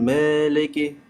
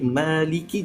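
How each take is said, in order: First: The vowels are shifted toward 'e'. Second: The vowels are clear 'a' and 'i'. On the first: The speaker calls it wrong. "jangan meleki" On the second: The speaker calls it right. "jadi maliki"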